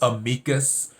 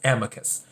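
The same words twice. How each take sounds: First: It is pronounced the classical Latin way. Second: It is pronounced the everyday English way. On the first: This is the original term's form. "the actual Latin term is amicus" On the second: This is how most people say it in ordinary speech. "in regular everyday la- language, everyone says amicus"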